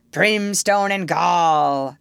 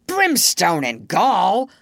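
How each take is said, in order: First: Slow, stretched-out pirate retort; Hook. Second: Slow, drawn-out pirate oath; mild thundering. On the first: Peter retorts in the captain's voice, drawling it. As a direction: throw the oath back as a mimicked captain. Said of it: "the voice retorted". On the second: Hook curses at his men, thundering a little. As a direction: roll the oath out with restrained thunder. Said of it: "thundered Hook". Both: A narrator's reading.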